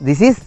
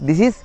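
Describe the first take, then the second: The two takes are said the same way.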